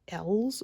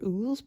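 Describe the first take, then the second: First: The name is one syllable starting with 'el'. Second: The name is one syllable starting with 'oo'. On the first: "I was always pronouncing it" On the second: "I was always pronouncing it"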